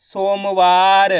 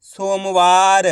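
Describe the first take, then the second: First: सोमवार stretched very slowly, each syllable held; slow demo of सोमवार; slow blended reading. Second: सोमवार said very slowly, syllables joined; slow teaching blend of सोमवार; slow blended reading. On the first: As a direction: draw सोमवार out even slower for the class. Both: Shown as a demonstration. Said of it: "तो मिलके बन जाएगा".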